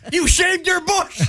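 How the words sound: It sounds enthusiastic.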